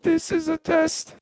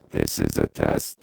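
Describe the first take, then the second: First: Very high, robotic pitch-shifted voice. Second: Very low, robotic pitch-shifted voice. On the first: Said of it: "all the way up". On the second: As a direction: drop the pitch deep and robotic. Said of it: "From thirty-six semitones down". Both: Shown as a demonstration.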